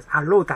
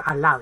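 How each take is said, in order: First: "allowed" said with an O sound, like "a-load"; "allowed" with the OW flattened to a long O; mispronounced allowed. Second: "allowed" with a clear AU diphthong; correct allowed pronunciation. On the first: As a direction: say "allowed" wrongly as "a-lode". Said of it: "allowed発音するとダメです". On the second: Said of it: "allowed発音するとダメです。allowedですね". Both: Shown as a demonstration.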